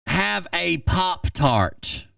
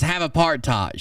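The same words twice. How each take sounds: First: Drawn out, deadpan: Have a Pop-Tart; slow deadpan. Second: Said in the usual way. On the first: Retold or imitated. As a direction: let the Pop-Tart line land slowly in disbelief. Reading his absurd line.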